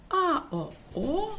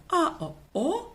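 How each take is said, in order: No difference in how they are said.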